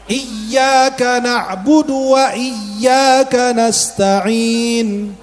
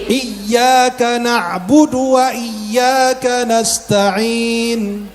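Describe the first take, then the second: Both takes have the same delivery.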